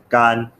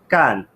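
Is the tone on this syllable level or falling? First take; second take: level; falling. First: The syllable is said with a high level tone. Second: The syllable is said with a sharply falling tone. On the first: It means dry. "no primeiro tom. Gan significa seco" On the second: It means to do. "se ela for pronunciada no quarto tom"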